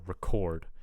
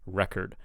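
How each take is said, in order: First: The stress is on the second syllable. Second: The stress is on the first syllable. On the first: It is used as a verb. "when it's a verb, the stress will be on the second syllable" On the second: It is used as a noun. "when it's a noun, the stress will be on the first syllable"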